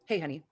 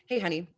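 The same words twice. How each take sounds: First: The voice is grounded and comes from the belly. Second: The voice is grounded and comes from the belly.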